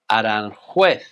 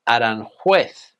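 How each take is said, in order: First: It is pronounced with Spanish sounds. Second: The same.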